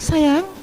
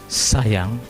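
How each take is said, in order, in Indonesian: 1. Diucapkan dengan intonasi yang hidup dan ekspresif. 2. Diucapkan datar, tanpa intonasi ekspresif.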